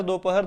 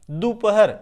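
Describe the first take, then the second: First: दोपहर said as "दोपहर" with a clear o in the first syllable; dopahar variant. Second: दोपहर said as "दुपहर" with a short u in the first syllable; dupahar variant. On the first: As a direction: say दोपहर as do-pa-har. (दोपहर को "दोपहर" बोलिए, पहले अक्षर में ओ) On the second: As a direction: say दोपहर as du-pa-har. (दोपहर को "दुपहर" बोलिए, पहले अक्षर में उ) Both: Shown as a demonstration. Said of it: "दोपहर दोनों आपको बुक में मिलेगा".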